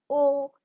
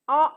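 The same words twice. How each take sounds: First: "O" as the letter name, oh; long vowel. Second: "O" as the short sound in octopus; brief open "O", not the letter name; short vowel. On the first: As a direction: say "O" long, like in oatmeal. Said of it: "O in oatmeal". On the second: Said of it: "in octopus". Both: Shown as a demonstration.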